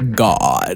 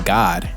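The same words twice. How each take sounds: First: The word sounds grand, drawn out and weighty. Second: The word sounds plain and ordinary. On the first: "You hear how I said that? ... when really educated people ... they're really trying to get a point across" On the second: "They don't say God"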